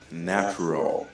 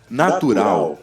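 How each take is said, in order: First: It is pronounced with English sounds. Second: It is pronounced with Portuguese sounds. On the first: This is the English word. "vira natural" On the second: This is the Portuguese word. "natural em português"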